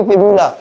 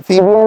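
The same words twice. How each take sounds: First: फिब्यूला ending in "-la", as "fibyula"; corrected फिब्यूला. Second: फिब्यूला with "-bia" in place of "-byula"; the slip "fibia" for फिब्यूला; mispronounced फिब्यूला. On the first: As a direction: say फिब्यूला with a clear "-byula" ending. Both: Shown as a demonstration. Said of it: "फिब्यूला नहीं".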